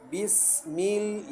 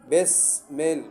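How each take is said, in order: First: Both vowels are pronounced like 'i'. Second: Both vowels are pronounced like 'e'. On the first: The speaker calls it right. "ये मारूफ तरीक़ा है" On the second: The speaker calls it wrong. "उसको भी मजहूल अदा करते हैं"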